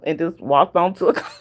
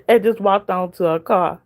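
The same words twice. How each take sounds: First: Words broken by a laugh; half laughing as she tells it; laughing through it. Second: Said in the usual way. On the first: Real, not acted. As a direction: chuckle through the line. Laughs while retelling.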